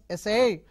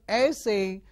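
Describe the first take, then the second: First: The stress is on the second syllable. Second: The stress is on the first syllable. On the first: To try to do something. "if you change the stress to the second syllable, it becomes essay" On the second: A short piece of writing. "When you stress on the first syllable, it becomes essay"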